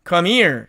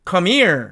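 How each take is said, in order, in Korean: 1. h 소리가 빠지고 단어들이 이어져서 발음됩니다. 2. h 소리가 빠지고 단어들이 이어져서 발음됩니다.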